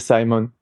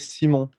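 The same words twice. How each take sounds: First: The name is said with an English pronunciation. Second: The name is said with a French pronunciation. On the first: "if I speak to someone English, I just say Simon" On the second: "in French we say Simon"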